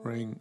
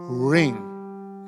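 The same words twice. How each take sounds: First: It is said in a flat tone. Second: It is said with strong emphasis.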